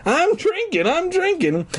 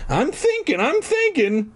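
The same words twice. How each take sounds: First: High, gleeful voice; grinning, mock echo; excited. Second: High voice through a yawn. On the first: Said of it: "answered with an excited grin". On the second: Acted. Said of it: "Fergie answered with a yawn".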